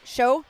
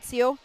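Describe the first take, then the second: First: The syllable starts with a 'sh' sound. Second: The syllable starts with an 's' sound. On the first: The speaker calls it right. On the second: The speaker calls it wrong. "not Seo"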